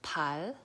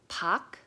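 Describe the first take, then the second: First: The syllable ends with a plain l sound. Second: The syllable ends with a plain k sound. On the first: "it's not pal" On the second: "so it's not pak"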